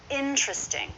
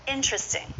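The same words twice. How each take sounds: No difference in how they are said.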